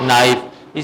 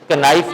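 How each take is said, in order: First: The word begins with an n sound, k silent. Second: The word begins with a pronounced k sound. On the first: The speaker calls it right. "के silent है" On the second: The speaker calls it wrong. "कनाइफ नहीं पढ़ेंगे"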